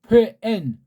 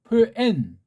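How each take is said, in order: Both takes have the same delivery.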